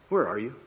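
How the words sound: It is said in an angry, stern tone.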